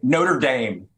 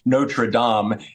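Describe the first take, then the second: First: It is said with an American pronunciation. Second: It is said with a French pronunciation. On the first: The speaker calls it wrong. "instead of saying Notre Dame" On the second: The speaker calls it right. "finally going to learn to pronounce Notre Dame"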